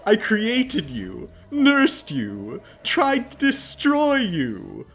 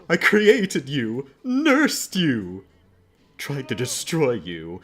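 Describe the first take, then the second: First: The last phrase sounds sincere and confident. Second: The last phrase sounds hesitant and second-guessing.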